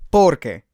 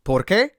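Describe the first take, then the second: First: "Por qué" hit loud on por, then falling; falling "Por qué", weight on the first syllable; stress on por. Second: "Por qué" rising onto a stressed qué; questioning "Por qué", weight on the last syllable. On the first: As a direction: punch por and let qué drop. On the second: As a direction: ask it, pushing the pitch up on qué. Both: Shown as a demonstration. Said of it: "the stress is on different parts".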